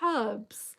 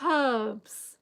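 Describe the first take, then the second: First: The h at the start is pronounced. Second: The same.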